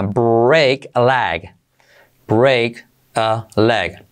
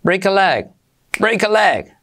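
First: Very slow, each word apart; slow explained. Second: Higher, quick natural break a leg; normal speed. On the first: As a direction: lay out each word for learners. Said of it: "primero explicado lento". (despacio, palabra por palabra) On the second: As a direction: say it as natives do. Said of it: "velocidad normal sería así". (velocidad normal, ligada) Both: Shown as a demonstration.

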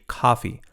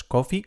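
First: COFFEE with an open A, "kah-fee", falling; model pronunciation. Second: COFFEE with a round O, "koh-fee", rising; wrong pronunciation. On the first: Teacher giving learners the model, correct pronunciation. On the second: Teacher showing learners the mistake, wrong pronunciation. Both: Shown as a demonstration. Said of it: "No es coffee".

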